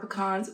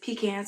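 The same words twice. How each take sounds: First: The last syllable sounds like 'con'. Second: The last syllable sounds like 'can'.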